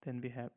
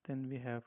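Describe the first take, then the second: No difference in how they are said.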